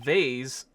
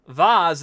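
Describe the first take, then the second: First: The word is said with an American pronunciation. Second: The word is said with a British pronunciation. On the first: "vase is an American pronunciation" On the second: "Vase is a British pronunciation"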